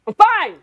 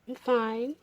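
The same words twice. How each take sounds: First: It is said in a tense, frustrated tone. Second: It is said in a soft, romantic tone.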